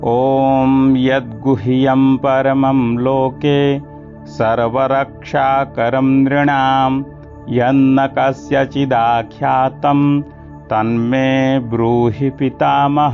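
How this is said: The verse is read in one continuous flow. "एक साथ बोलेंगे"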